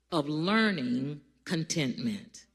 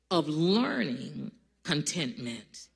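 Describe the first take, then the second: No difference in how they are said.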